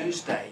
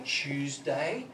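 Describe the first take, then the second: First: "Tuesday" said "Toosday", higher; American pronunciation. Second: "Tuesday" said "Choosday", drawn out; Australian pronunciation. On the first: Retold or imitated. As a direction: say "Tuesday" with a clean T. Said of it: "and you would say". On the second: Shown as a demonstration. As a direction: say "Tuesday" with a CH start. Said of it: "We say Tuesday".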